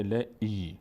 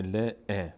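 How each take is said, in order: First: "ل، ای" with a long ee vowel; strengthened kasra. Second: "ل، ا" with a short e vowel; short kasra. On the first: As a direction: stretch "ل، ای" into "le-ee". («ل، ای» با صدای کشیده ای) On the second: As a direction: say "ل، ا" as "le, e", not long i. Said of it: "اینجا دیگه نمیشه ل، ا". («ل، ا» با کسره، صدای اِ) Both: Shown as a demonstration.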